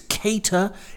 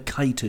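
First: The first vowel sounds like 'Kate'. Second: The first vowel sounds like 'kite'. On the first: The speaker calls it right. "It's cater as in AD, Moss, or Winslet" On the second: The speaker calls it wrong. "pull you up on the kiter shout"

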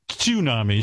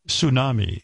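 First: The word starts with an audible T sound. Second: The word starts without a T sound. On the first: The speaker calls it right. "It's tsunami, so I have to take away a point" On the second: The speaker calls it wrong. "You said tsunami"

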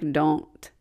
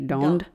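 First: The word ends with a plain T sound. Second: The word ends with a D sound.

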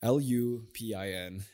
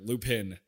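First: The name is said with a non-American pronunciation. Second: The name is said with an American pronunciation. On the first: The speaker calls it right. "but don't say it like that. Lupin, beautiful show" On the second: The speaker calls it wrong. "If you're American, you'd be like Lupin"

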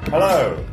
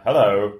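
First: It is said in a natural voice. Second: It is said in a deeper, manlier voice.

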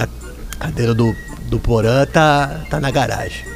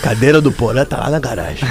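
First: It is said in a sad tone. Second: It is said in a happy tone.

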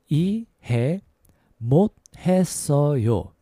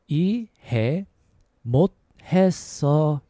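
The two takes are said the same way.

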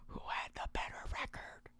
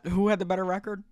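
First: It is spoken in a soft ASMR whisper. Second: It is spoken in a normal voice.

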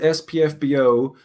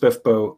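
First: The term is spelled out letter by letter. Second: The term is said as one short word. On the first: "I pronounced it SPFBO until I met Laura Hughes" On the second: "she told me it was pronounced Spiffbo"

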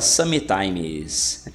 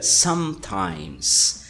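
First: An extra vowel sound is heard after the M. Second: The lips close on M with no vowel after. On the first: The speaker calls it wrong. "Muita gente fala sometimes. Sometimes is incorrect" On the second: The speaker calls it right. "tem que fechar a boca na letra M... E a letra E que tem ali você não vai falar. Então fica sometimes"

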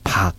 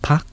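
First: The word is said on a low tone. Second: The word is said on a high tone. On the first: It means vegetable. "これを低い成長にしましてパというふうに言うと野菜という意味になり" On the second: It means to stay overnight. "宿泊するは高い成長なんですけれども"

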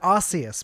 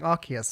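First: The c is pronounced like an s. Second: The c is pronounced like a k. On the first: This is the form the speaker has always used. "I've always said Arceus" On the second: This is the form the other person uses. "I've now noticed you saying Arceus"

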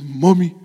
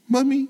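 First: The word is said in a deeper, rougher voice. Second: The word is said in a thin, high voice. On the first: The speaker calls it right. "sound more like Esau" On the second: The speaker calls it wrong. "I can imagine Jacob saying with his thin voice"

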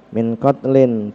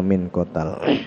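First: The word is said in full as qatlin. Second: The word is said shortened as qatal. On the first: This is the regular form of the word. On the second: The form is altered out of necessity.

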